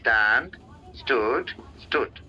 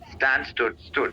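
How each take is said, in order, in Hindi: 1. शब्दों के बीच रुककर बोले जाते हैं। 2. शब्द एक ही सांस में एक साथ बोले जाते हैं। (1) "ऐसे नहीं करना होता" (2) "ऐसे ही बिना ब्रेथ को तोड़े"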